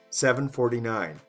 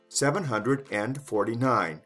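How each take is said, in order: First: The number is said without 'hundred' or 'and'. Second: The number is said with both 'hundred' and 'and'. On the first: "Even shorter" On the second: "That's the long way"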